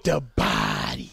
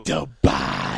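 First: Slow, low announcer "The Body"; deep voice. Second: Very low, loud announcer "The Body"; deep voice. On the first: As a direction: drawl it out like a hype man. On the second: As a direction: drop into a booming low growl. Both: Acted. Echoing handle in deep voice.

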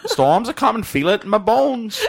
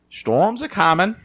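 First: Higher, laughing Maine local; Maine accent. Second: Slow, higher Maine drawl; Maine accent. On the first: Imitating a Maine local, laughing, Maine accent. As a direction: play the old Mainer feeling it in his bones. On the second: Imitating a Maine local for friends, slow Maine accent. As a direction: warn of the storm like an old Mainer. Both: Pretend. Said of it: "I'm trying to think of what it sounds like".

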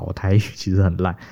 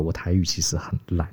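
First: Said in the usual way. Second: Unvoiced whispered confession. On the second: Real, not acted. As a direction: breathe it out like a sheepish secret. Confessing poor Taiwanese, aside. (耳语般小声坦白)

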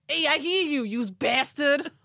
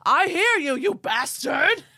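First: Loud Long Island yell; Long Island accent. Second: Loud furious yell at the sky. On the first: Ed shouting at aliens, Long Island accent yell. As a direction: bellow it like a Long Island dad. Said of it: "do it with the first accent that you gave him". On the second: Ed yelling at the aliens in the sky, loud furious yell. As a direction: scream it up at the sky. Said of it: "he yelled". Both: Retold or imitated.

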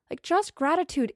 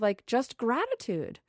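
First: Higher, stress on just; emphatic gratitude. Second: Slow, gentle, settling into gratitude; slow soft gratitude. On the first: Repeating her point to listeners, higher and emphatic. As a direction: lift and press on just. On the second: Sharing her gratitude with listeners, slow and soft. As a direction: ease into the word gratitude slowly. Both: Real, not acted.

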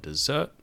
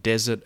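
First: "desert" stressed on the last syllable, de-ZERT; stress on second syllable. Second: "desert" stressed on the first syllable, DEZ-ert. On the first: Teacher giving another stress example, "desert" stressed at the end. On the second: Teacher giving another stress example, "desert" stressed up front. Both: Shown as a demonstration. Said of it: "the same goes for words like".

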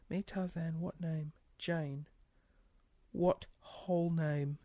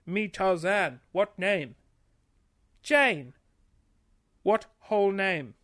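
First: Soft, slow puzzled reread; quiet reread. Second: Said in the usual way. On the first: Real, not acted. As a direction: mutter it while working it out. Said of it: "I don't get that".

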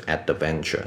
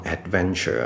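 First: “adventure”错念成ad-de-venture; 在“adventure”的d后插一个“的”; d后多加母音. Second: “adventure”念成ad-venture; “adventure”的d直接接v; d不加母音. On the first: (错误示范“adventure”，d带元音) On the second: (念“adventure”时d后不插元音) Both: Shown as a demonstration. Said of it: "不是adventure".

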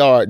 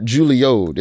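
First: "Juilliard" said the usual way, ending in "-yard"; standard Juilliard pronunciation. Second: "Juilliard" bent into "Julio'd", ending in "-ode"; knock-off Juilliard pronunciation. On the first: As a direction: say "Juilliard" like the real school, JOO-lee-ard. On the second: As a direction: say "Juilliard" as JOO-lee-ode, the off-brand school. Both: Shown as a demonstration. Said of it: "Not Juilliard, Juilliard. It's next door".

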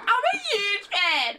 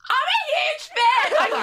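First: Mock fan yell. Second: Very high, loud, drawn-out fan squeal; starstruck yell. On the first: Guest replays her blunder for laughs, high mock fan yell. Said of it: "I yelled at her". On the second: Retold or imitated. Guest re-enacts meeting her idol, starstruck yell. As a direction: re-enact blurting it out far too loudly. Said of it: "I yelled it at her".

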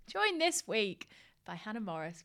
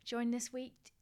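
First: Slower, deliberate retake of the intro; careful retake. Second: Said in the usual way. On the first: Real, not acted. Host redoing her fluffed guest introduction, slow and careful. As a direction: start the intro over slowly and carefully. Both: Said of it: "I can't speak".

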